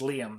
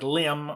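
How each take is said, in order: First: The name is said short. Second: The name is drawn out long.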